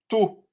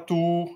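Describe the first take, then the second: First: The final vowel is kept short. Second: The final vowel is held long. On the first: The speaker calls it right. "il n'y a pas de prolongation" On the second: The speaker calls it wrong. "Et non pas tout, hein, parce qu'il n'y a pas de prolongation"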